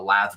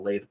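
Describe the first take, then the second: First: The word is said as 'lath'. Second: The word is said as 'lathe'. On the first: "I know that's how you say it" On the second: "I like saying lathe"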